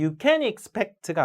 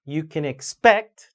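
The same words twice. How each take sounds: First: You CAN expect, can punched; wrongly stressed can. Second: You can exPECT, can reduced; rising finish on expect; natural English stress. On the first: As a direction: lean on can as the mistake. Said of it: "can의 강세를 주면 큰일". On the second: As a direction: skim can and hit expect. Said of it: "자연스러운 영어 강세를". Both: Shown as a demonstration.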